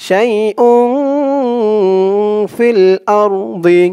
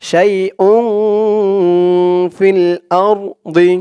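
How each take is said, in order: Both takes have the same delivery.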